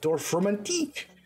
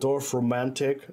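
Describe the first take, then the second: First: The name is said in a French accent. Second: The name is said in a plain accent.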